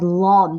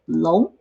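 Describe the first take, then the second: First: It is said like the English word long. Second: It is said as the Mandarin syllable lóng. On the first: The speaker calls it wrong. "have the tendency to pronounce it as long" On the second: The speaker calls it right. "but it is in fact 龙"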